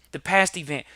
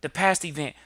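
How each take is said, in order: Both takes have the same delivery.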